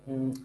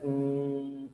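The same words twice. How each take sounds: First: The hesitation sound is short. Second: The hesitation sound is drawn out long. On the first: The speaker calls it right. "not too long" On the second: The speaker calls it wrong. "don't do like"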